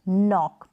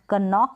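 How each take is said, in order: First: The word begins with an n sound. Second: The word begins with a k sound. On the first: The speaker calls it right. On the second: The speaker calls it wrong. "कनॉक नहीं"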